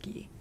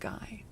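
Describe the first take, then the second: First: The name is said with French sounds. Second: The name is said with English sounds. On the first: This is the pronunciation of the name's French origin. "comes from French and would be pronounced Guy" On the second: This is the commonly heard pronunciation. "I've always heard it pronounced Guy"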